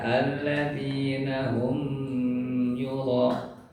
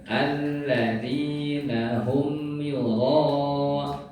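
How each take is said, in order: First: The m is held with a nasal hum. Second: The m is pronounced clearly without a nasal hum. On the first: The speaker calls it wrong. "Jadi jangan dibaca" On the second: The speaker calls it right. "seperti itu Bapak Ibu"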